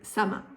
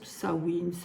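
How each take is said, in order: First: It is said with a French-style pronunciation. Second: It is said with a Gaelic pronunciation. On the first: "Moi, je reste avec Samin" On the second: "Ce mot gaélique se prononce Samhain"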